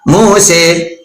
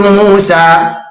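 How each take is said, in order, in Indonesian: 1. Kata ini berakhir dengan vokal e. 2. Kata ini berakhir dengan vokal a. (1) "pakainya pakai e" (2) "nggak biasa pakai a"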